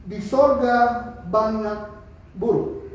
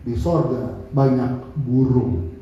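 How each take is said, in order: First: Drawn out very slowly, each word weighed; slow deliberate answer. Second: Spoken slowly and low, as heard in the heart; slow, low inner voice. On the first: Preacher slowly answers the transgender person's question. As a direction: say it slowly and carefully to him. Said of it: "Saya bilang sama dia gini". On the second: Preacher recalls the inner voice telling him what to say. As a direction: let it land slowly, like an inner prompting. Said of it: "hati saya begini, bilang sama dia". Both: Retold or imitated.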